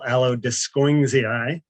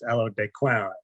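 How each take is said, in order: First: The name is pronounced in an American way. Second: The name is pronounced in a French way. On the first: This is how the name is commonly said locally. The speaker calls it wrong. "that's a very American pronunciation of the name" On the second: This matches how the honored person's name is said. The speaker calls it right. "technically, we should be calling this"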